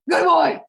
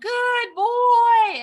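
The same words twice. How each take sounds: First: The words are said short and quick. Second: The words are said long and drawn out. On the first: "That's more relaxing than good boy" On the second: "when it's long and drawn out"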